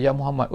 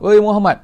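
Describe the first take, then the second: First: Said in the usual way. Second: High, loud "Oi Muhammad" yelled out; loud call. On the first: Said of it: "dia panggil". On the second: Retold or imitated. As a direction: bellow "Oi Muhammad" from far away. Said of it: "panggil dengan suara tinggi". (jerit "Oi Muhammad" tinggi dan kuat)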